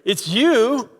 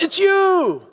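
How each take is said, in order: First: It sounds annoyed, like an unwelcome arrival. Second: It sounds surprised, like an unexpected encounter. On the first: The person's presence is unwelcome. "what are you doing here?" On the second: The speaker did not expect to see this person. "you see somebody and you're surprised"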